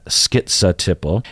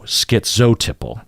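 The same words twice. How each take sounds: First: The second syllable sounds like za. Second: The second syllable sounds like zo. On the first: "I say skit za" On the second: "you also hear zo"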